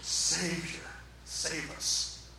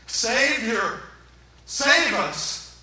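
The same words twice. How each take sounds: First: Low, soft plea, barely voiced; hushed retold cry. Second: Loud, emphatic acted cry; crowd crying out. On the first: Preacher first gives the crowd's cry softly, hushed. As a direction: report the crowd's yell under your breath. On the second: Preacher acts the crowd around Jesus, crying out. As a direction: call out for rescue. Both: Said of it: "people all around him yelling out".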